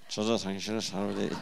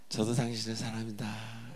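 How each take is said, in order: First: It is said in a stiff, flat way. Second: It is said in a warm, friendly way.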